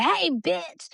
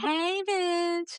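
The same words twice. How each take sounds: First: High, punchy hey bitch; mock rough hey bitch; rough greeting. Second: High, sing-song hey bitch; lightly sweet hey bitch; friendly greeting. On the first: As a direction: toss it out rough and teasing. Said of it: "I might be like". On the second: Retold or imitated. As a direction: say it like an affectionate hello. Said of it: "But I'm really meaning like".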